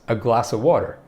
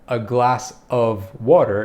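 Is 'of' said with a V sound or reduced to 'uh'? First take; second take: uh; V sound. First: The word 'of' is reduced to a bare 'uh'. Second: The word 'of' is said fully with a V sound. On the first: "we'd just say uh" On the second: "So it's not"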